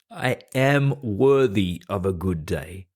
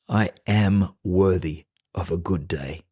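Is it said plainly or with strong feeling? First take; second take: strong feeling; plainly. First: It is said with strong, heartfelt feeling. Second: It is said plainly, without much feeling.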